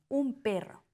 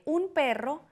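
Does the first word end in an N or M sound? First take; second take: M; N. First: The first word ends with an M-like sound. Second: The first word ends with a plain N sound.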